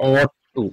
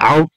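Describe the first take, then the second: First: The first word sounds like aught. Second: The first word sounds like out. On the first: The speaker calls it right. "এটা হবে অট টু" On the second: The speaker calls it wrong. "অট টুটাকে অনেকে আউট টু বলে থাকে"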